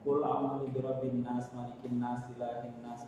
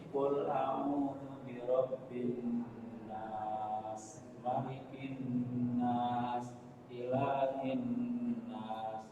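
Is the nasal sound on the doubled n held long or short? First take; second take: short; long. First: The doubled n sounds are said short, without hum. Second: The doubled n sounds are held long with hum. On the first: The speaker calls it wrong. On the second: The speaker calls it right.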